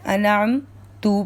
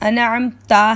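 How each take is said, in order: First: The word ends with a u vowel. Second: The word ends with an a vowel. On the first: The speaker calls it wrong. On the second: The speaker calls it right.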